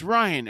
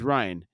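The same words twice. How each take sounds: First: High retold yell of the name; raised, urgent cry. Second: Said in the usual way. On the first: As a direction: call out in alarm, pitched well up. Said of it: "Homelander yells". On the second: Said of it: "Homelander says".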